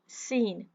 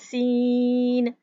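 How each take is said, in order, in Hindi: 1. स्वर को छोटा रखा गया है, खींचा नहीं गया। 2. स्वर को बहुत लंबा खींचा गया है। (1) "हमने सिर्फ पढ़ना है सीन सीन" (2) "इसको बहुत खींचना नहीं है, सीन इस तरह नहीं पढ़ना"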